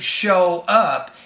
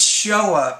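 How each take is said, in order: First: Show and up are said separately. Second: Show and up are blended together. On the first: The speaker calls it wrong. "It's not why didn't Steve show up" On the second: The speaker calls it right. "you group those together because of the blending"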